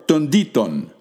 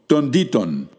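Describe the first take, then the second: No difference in how they are said.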